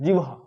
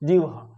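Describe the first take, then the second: First: The h sound comes after the v sound. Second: The same.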